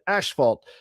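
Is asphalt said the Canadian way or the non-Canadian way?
Canadian. It is said with the Canadian pronunciation. "he's always said asphalt ... it's a Canadian accent"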